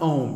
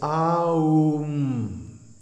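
First: The word is said as one short syllable. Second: The word is said as three full beats. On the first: The speaker calls it wrong. "don't mispronounce it Om" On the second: The speaker calls it right. "each one gets a full beat"

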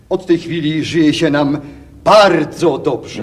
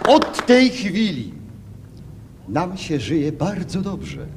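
First: The word bardzo is strongly stressed. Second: The word bardzo gets no special stress.

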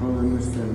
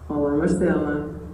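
First: It is said in a neutral tone. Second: It is said in a friendly tone.

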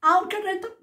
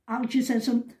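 First: The word ends with a 'rhythm' sound. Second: The word ends with a 'cism' sound. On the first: The speaker calls it right. "I've sussed it" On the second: The speaker calls it wrong. "You know the way I can't say that word?"

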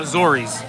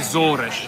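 First: The word ends with a plain s sound. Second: The word ends with a crunchy sh sound. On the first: "most people would call Azores" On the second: "So they call it Azores"

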